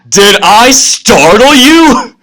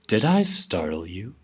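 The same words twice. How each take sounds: First: It is said loudly, almost yelling. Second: It is said softly and gently. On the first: The speaker is about to go into a rage. "the all caps makes it look like" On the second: The speaker is trying to calm someone. "I'm doing this soothing voice of"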